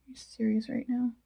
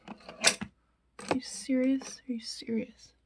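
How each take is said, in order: First: Said in the usual way. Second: Whispered disbelief; exasperated whisper. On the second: Real, not acted. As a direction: hiss it under your breath in disbelief. Can't find her brush.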